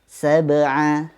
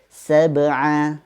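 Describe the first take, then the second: Both takes have the same delivery.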